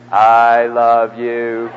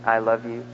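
First: Long, low, drawn-out words; with feeling. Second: Said in the usual way. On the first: Shown as a demonstration. Preacher shows the congregation how to say it, with feeling. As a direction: stretch every word out slowly with heavy feeling. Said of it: "say it with feeling". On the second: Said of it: "Say it with feeling".

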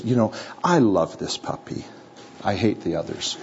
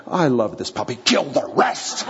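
First: Said in the usual way. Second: Gentle, then suddenly a hammed-up murderous order; mock bloodthirsty. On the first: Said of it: "what she would say is". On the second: Girl choosing a puppy, mock bloodthirsty turn at the end. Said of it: "What she's not saying is".

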